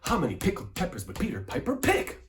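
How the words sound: It is said forcefully with strong energy. "I'm forced"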